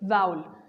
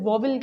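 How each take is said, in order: First: The first vowel sounds like 'ow'. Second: The first vowel sounds like 'aw'. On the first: The speaker calls it right. "The correct pronunciation" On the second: The speaker calls it wrong. "इसे अक्सर लोग गलत pronounce करते हैं"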